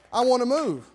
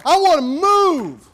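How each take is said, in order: First: Said in the usual way. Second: Slow, loud, high proclaiming of "I wanna move"; loud preached. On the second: Acted. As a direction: drive "I wanna move" home at the top of the voice.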